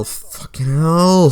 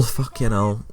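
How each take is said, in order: First: Drawn-out, higher exasperated swearing; exasperated curse. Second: Resigned curse. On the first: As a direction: groan it out slowly in exasperation. Dreading the boat time trial. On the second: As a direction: swear under your breath, resigned. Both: Real, not acted.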